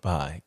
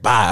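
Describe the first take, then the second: First: It is said softly and gently. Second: It is said abruptly and curtly.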